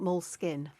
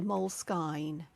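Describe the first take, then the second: First: The last vowel is a short 'i' sound. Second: The last vowel is a long 'eye' sound. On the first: "It'd be skin if there wasn't an E on the end" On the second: "we use the sound, you know, the letter name like I"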